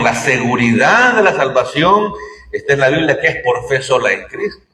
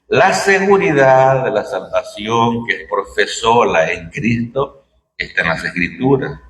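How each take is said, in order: First: It is said at normal speed. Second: It is said more slowly.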